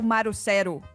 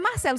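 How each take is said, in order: First: The name is said with Japanese sounds, no L. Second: The name is said the plain Portuguese way. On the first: "Você provavelmente vai ser tipo Marucero" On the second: "você não é Marcelo"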